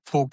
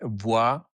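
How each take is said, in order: First: The name is said with a northern German pronunciation. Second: The name is said with a French pronunciation. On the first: "is in northern part" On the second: "In France, you would say"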